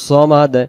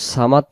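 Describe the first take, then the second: First: The first consonant is a heavy, thick s. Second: The first consonant is a light, thin s. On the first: The speaker calls it right. "সদের বেলায় সদের মতো" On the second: The speaker calls it wrong. "সদের জায়গায় সিন আসবে"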